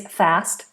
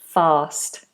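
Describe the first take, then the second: First: It is said in an American accent. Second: It is said in a Southern British accent. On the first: "American is fast" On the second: "standard British English, as in Southern British English, is fast. It's that long vowel again"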